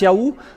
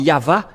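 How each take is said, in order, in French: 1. Le milieu du nom a un son w/ou. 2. Le milieu du nom a un son v. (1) "ceux qui prononcent le OU" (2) "C'est toujours le V, la vraie épellation"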